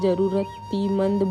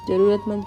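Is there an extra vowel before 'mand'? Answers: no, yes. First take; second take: yes; no. First: An extra 'ee' vowel comes before the final part. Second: No vowel is added before the final part. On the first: The speaker calls it wrong. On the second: The speaker calls it right.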